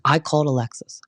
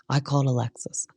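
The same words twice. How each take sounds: First: Said in the usual way. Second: Fading whispered repeat, like a dramatic TV echo. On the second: Retold or imitated. Recapper mimicking the show's edit repeating Heather's line as an echo. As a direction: breathe "I called Alexis" as a ghostly echo. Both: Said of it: "put that three times".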